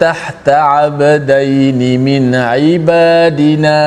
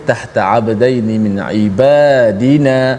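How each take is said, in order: First: The long vowels are drawn out slightly too long. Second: The long vowels are held evenly at two counts. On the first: The speaker calls it wrong. "dia dah macam meleret sikit" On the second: The speaker calls it right. "semua perkataan yang dibaca mad dua harakat ni kita mesti baca dengan sekata"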